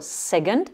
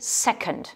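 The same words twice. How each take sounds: First: The stress is on the second syllable. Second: The stress is on the first syllable. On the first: The speaker calls it wrong. "ne pas dire second" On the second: The speaker calls it right. "mais second. Hein, et on accentue bien sur la première syllabe"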